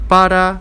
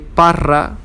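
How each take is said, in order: First: The middle R is a soft tap. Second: The middle R is strongly trilled. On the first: The speaker calls it right. "it's soft" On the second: The speaker calls it wrong. "We don't say parra"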